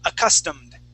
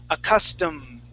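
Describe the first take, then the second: First: The syllables are run together quickly. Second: The syllables are slightly closer together. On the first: "Let's shorten it all the way" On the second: "let's slide it a little bit closer together"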